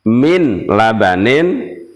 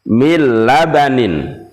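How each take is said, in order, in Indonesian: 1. Bunyi n diucapkan terpisah sebelum l. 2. Bunyi n menyatu ke dalam l, tanpa dengung. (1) "tidak boleh" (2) "dimasukkan tanpa dengung"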